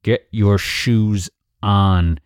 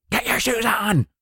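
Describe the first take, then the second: First: Very slow, word-by-word order; losing patience. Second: High-pitched exasperated shout; yelling. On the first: Parent repeating order to ignored child, slow and stern. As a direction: spell it out slowly, patience running out. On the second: Parent finally yelling at child to get shoes on. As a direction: snap into a strained high yell. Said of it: "why do you always yell?". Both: Acted.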